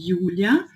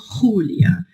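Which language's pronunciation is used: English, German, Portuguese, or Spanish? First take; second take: German; Spanish. First: The name is pronounced the German way. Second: The name is pronounced the Spanish way. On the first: "se eu falo em alemão" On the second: "E se eu falo em espanhol"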